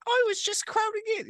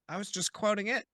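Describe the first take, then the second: First: Very high squeaky character voice; Patrick Jackson voice. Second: First try at the line; quoting, first take. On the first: Player redoing the line in a much higher voice. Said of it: "He's still doing the Patrick Jackson". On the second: To the king, first attempt at the quote. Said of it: "Or sorry". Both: Shown as a demonstration.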